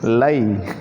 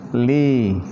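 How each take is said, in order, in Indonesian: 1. Kata ini diucapkan dengan vokal 'eye'. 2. Kata ini diucapkan dengan vokal 'ee'. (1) "Jangan antum baca apa? Lai" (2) "Makanya harus dibaca li"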